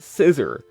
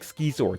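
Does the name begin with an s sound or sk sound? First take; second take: s sound; sk sound. First: The name begins with a plain s sound. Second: The name begins with an sk sound. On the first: This is how other people say it. "others say it Scissor" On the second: This is how the speaker has always said it. "I say it like Skizor, that's how I've always said it"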